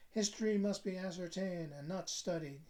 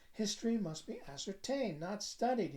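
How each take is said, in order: First: Mildly lofty pronouncement; philosophical announcement. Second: Higher, emphatic pronouncement; insistent repeat. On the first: Cousin announcing his creed over dinner, mildly philosophical. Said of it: "he announced rather philosophically". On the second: Cousin repeating his creed to a puzzled listener, emphatically. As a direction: repeat the maxim more forcefully. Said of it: "he repeated". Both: A narrator's reading.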